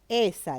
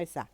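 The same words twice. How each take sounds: First: The stress is on the first syllable. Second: The stress is on the second syllable. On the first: The speaker calls it right. "esa decimos" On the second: The speaker calls it wrong. "no decimos"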